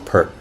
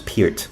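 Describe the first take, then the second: First: The name sounds like the shampoo Pert. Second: The name does not sound like Pert. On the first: The speaker calls it wrong. "we used to say Pert" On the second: The speaker calls it right. "his correct pronunciation is Peart"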